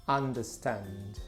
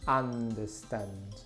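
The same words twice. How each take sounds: No difference in how they are said.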